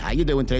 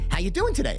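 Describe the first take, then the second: First: The greeting sounds flat, dull and routine. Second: The greeting sounds bright, warm and upbeat. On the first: The caller is just going through the motions. The speaker calls it wrong. "this stupid" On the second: The caller really wants to know. The speaker calls it right. "really nice upbeat greeting"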